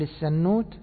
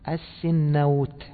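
First: It is said on the pattern of tannur. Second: It is said on the pattern of sinnawr. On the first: "السنوت على وزن تنور" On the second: "وأيضا على وزن سنور"

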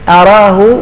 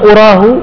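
First: The first vowel is an 'a' sound. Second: The first vowel is not an 'a' sound. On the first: The speaker knows it for certain. "أراه بفتح الهمزة هذا أعلمه" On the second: The speaker only supposes it. "وأما أراه يعني أظنه"

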